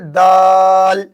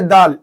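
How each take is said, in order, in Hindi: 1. स्वर को खींचकर लंबा बोला जाता है। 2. स्वर को छोटा रखा जाता है।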